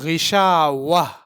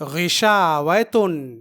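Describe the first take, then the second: First: The word ends with a soft 'ah' sound. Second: The word ends with a nasal 'tun' sound. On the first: The reader stops on this word. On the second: The reading continues past the word.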